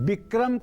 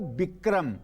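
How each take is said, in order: First: The word begins with a V sound. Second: The word begins with a B sound. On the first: "व की जगह" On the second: "ब लिखा हुआ है"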